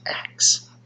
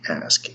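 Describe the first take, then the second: First: The s sound comes after the k sound. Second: The s sound comes before the k sound. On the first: "they say axe" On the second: "Instead of saying ask"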